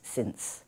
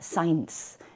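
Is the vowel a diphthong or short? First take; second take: short; diphthong. First: The vowel is short and plain. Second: The vowel is a long gliding diphthong. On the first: The speaker calls it right. "esa vocal es corta y la palabra es since" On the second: The speaker calls it wrong. "se alarga o se crea un diptongo"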